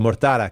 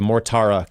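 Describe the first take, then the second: First: The name is said with Italian-style pronunciation. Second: The name is said with English-style pronunciation.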